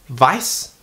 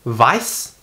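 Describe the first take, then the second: Both takes have the same delivery.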